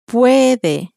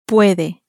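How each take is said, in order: First: It is said very slowly. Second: It is said at normal speed.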